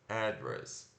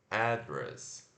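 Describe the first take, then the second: No difference in how they are said.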